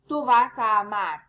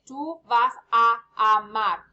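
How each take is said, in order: First: The words are run together smoothly. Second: The words are separated by small pauses.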